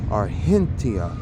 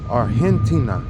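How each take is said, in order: First: It is pronounced the way locals there say it. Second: The same.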